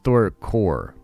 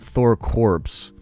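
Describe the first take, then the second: First: The word ends without any P or S sound. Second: The word ends with a P and S sound. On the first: The speaker calls it right. "It's Thor core" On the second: The speaker calls it wrong. "you don't say the P on that. It's not Thor corpse"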